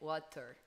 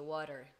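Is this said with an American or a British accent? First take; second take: British; American. First: It is said with a British accent. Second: It is said with an American accent. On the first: "ela falou no inglês britânico, que é water" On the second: "Em americano seria"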